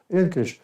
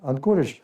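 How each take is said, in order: First: It starts with 'en' and has two syllables. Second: It starts with 'an' and has three syllables.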